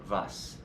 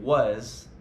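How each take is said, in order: First: The word begins with a V sound. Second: The word begins with a W sound. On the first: The speaker calls it wrong. "the W will end up sounding like V" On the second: The speaker calls it right. "Instead of was"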